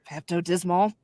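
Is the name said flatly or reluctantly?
reluctantly. It is said hesitantly, as if unwilling to say it. The speaker does not want to say it. "you could be like"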